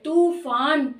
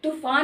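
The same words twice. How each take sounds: First: The first vowel is said long. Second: The first vowel is said short. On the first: The speaker calls it right. "बड़ी ऊ की मात्रा वाला तूफान सही है" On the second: The speaker calls it wrong. "तूफान नहीं बोल रहे"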